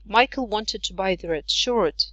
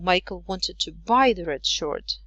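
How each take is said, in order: First: The strongest stress falls on the word shirt. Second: The strongest stress falls on the word buy. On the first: It was a shirt, not another garment. "not the red jumper" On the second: He meant to buy it, not sell or borrow it. "not sell it or not borrow it"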